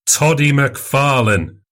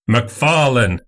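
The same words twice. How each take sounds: First: Put-on higher and bolder, pressing the old nickname; insistent repeated call. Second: Name called out like a herald, a touch raised; loud herald call. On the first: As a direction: call him out again, more pointedly. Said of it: "repeated Fettes". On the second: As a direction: announce the name boldly, not friendly. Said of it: "somewhat loudly". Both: A narrator's reading.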